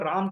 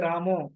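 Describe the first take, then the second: First: The name ends on the bare final consonant. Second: The name ends with an o vowel. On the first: This is how it is said in the north. "अपना उत्तर भारत में हम भगवान राम को राम कहते हैं" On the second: This is how it is said in the east. "Bengal में, तो वहां पे रामो"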